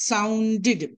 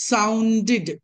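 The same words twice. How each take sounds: Both takes have the same delivery.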